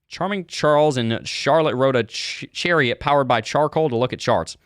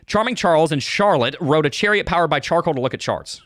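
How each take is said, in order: First: It is read at a normal pace. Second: It is said quickly.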